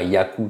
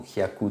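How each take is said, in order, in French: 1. Le mot commence par le son y. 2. Le mot commence par le son k. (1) "c'est pas yaku tout simplement" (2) "ou kyaku tout simplement"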